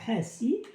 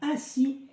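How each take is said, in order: First: The first h sound is pronounced. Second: The first h sound is silent. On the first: This is the Arabic way of saying it. "nous nous le parlons en arabe, donc nous disons Hassi" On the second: This is the French way of saying it. "en français on dira Hassi Messoud"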